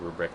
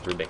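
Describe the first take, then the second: First: The second syllable has an r sound. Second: The second syllable has no r sound. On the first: The speaker calls it wrong. "instead of Rubric" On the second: The speaker calls it right. "I need to start calling him Rubik"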